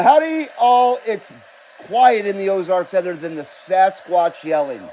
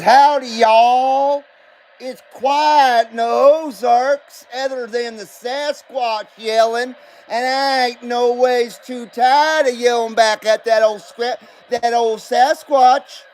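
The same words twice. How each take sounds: First: Said in the usual way. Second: Slow put-on Southern US accent, hammed-up; mock Southern drawl. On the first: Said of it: "I lack any kind of accent whatsoever". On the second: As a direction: read the chat like an Ozarks hillbilly drawling slowly. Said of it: "I lack any kind of accent whatsoever. So it's hard for me to pander".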